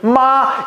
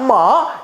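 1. 它带的是较高的阴平调。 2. 它带的是较高的阴上调。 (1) "阴平" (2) "阴上"

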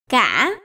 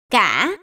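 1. Âm tiết được nói với thanh ngã. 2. Âm tiết được nói với thanh ngã.

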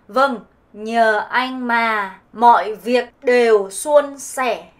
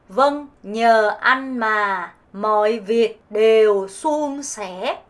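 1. 북부 베트남 억양으로 발음됩니다. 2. 남부 베트남 억양으로 발음됩니다. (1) "북부로는" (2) "남부 발음 해볼게요"

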